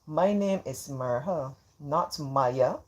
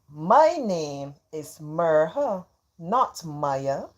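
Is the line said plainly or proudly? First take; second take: plainly; proudly. First: It is said plainly, without much pride. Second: It is said with strong pride.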